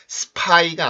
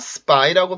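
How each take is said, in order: First: The p is released with a strong puff of air. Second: The p sounds tense and has no puff of air. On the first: The speaker calls it wrong. "스파이가 아니라" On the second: The speaker calls it right. "된소리가 나오는 경우"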